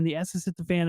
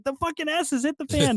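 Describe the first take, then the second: First: Said in the usual way. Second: Frustrated outburst. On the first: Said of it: "Zeke has his daughter on his lap and is like". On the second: Retold or imitated. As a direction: pitch jumps high, exasperated exclamation. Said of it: "Earl's at work and has no idea".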